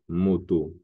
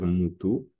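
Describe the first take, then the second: First: The vowels are pronounced as 'o'. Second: The vowels are pronounced as 'oo'. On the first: "le O peut devenir U" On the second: "Peut se dire Moutou"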